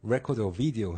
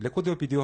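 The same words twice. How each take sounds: First: It is said with English R and V sounds. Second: It is said with Korean pronunciation. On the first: The device recognizes it. The speaker calls it right. "해야지만 돼요" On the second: The device does not recognize it. The speaker calls it wrong. "하면 안 돼요"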